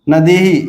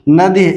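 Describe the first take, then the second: First: The final h is followed by an echo vowel. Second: The word ends in a bare h sound. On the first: The speaker calls it right. "इस रूप में करना चाहिए" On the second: The speaker calls it wrong. "न कि इसका उच्चारण नदी इस रूप में करना चाहिए"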